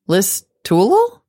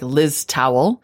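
First: The name does not end like the word towel. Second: The name ends sounding like the word towel. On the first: The speaker calls it right. "but is pronounced Listowel" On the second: The speaker calls it wrong. "which sure looks like Liz Towel"

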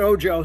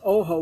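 First: It is pronounced with English sounds. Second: It is pronounced with Spanish sounds. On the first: This is how the book's creator says it. "but Sam pronounced it Ojo" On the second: This is the word's original meaning, eye. "In Spanish, Ojo is ojo"

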